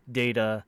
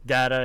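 First: "data" opening like the word "day"; DATA as "dayta". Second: "data" with an open first A, not "day"; DATA as "datta". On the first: Naming the guy in Star Trek, "data" as "dayta". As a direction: say "data" as DAY-tuh, long A. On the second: Agreeing with co-host's rule, "data" as "datta". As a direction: say "data" as DAT-uh, short A. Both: Shown as a demonstration. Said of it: "just the pronunciation".

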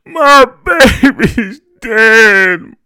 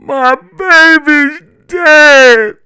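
First: High, loud, drawn-out grieving moan. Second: Very high, loud, drawn-out wail. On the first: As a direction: moan it slowly, full of grief. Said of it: "my mother moaned". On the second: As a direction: wail it slowly in raw grief. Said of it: "my mother wailed". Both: A narrator's reading.

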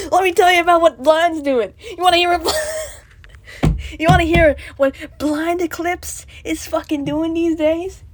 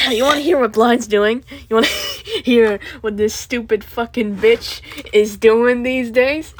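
First: Loud laughing shout. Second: Loud mocking call; loud sharp voice. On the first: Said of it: "I should stop shouting". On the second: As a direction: shout the question. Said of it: "I'm sorry for shouting". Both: Real, not acted.

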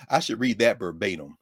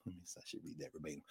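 First: Said in the usual way. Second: Fast whisper to himself; whispered aside. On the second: Real, not acted. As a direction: whisper it under your breath, quickly.

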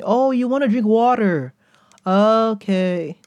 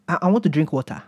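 First: Put-on high, dawning realization in an American accent; mock an American finally getting it, drawn-out and high. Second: Put-on hesitant repeat in a non-American accent; non-American accent, water as "wotah". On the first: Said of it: "how to speak like an American". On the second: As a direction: repeat it in your home accent, dropping the R. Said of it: "learned how to speak like an American".

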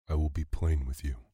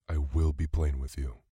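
First: Said in the usual way. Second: "will" stressed firmly in insistence. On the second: A narrator's reading. Slinkton insisting to a man who contradicts him, stress on "will". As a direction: lean on the word "will".

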